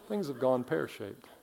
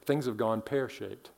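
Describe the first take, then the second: First: It is said in an imitated British accent. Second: It is said in the speaker's ordinary accent.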